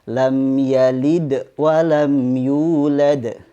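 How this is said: The voice stops briefly after yalid. The speaker calls it wrong. "Tidak boleh dibaca ... terhenti di yalidnya"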